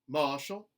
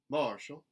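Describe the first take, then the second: First: The R sound is dropped. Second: The R sound is lightly pronounced. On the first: "a general Southern dropped R" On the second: "a contemporary Southern, where those R colorations are put back in"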